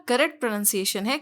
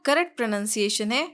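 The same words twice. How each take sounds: No difference in how they are said.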